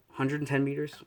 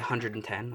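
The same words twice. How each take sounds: First: "Hundred and ten meters" lifted into a tentative question; questioning tune. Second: Said in the usual way. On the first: Real, not acted. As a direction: offer "Hundred and ten meters" as an unsure suggestion, pitch rising. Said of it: "does that sound good enough". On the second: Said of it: "we'll just say".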